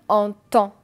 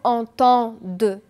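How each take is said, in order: First: The final D sound is silent. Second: The final D sound is pronounced. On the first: The speaker calls it right. "je vais dire entend" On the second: The speaker calls it wrong. "Je ne vais pas dire entend de"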